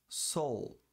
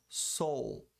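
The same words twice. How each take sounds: The two takes are said the same way.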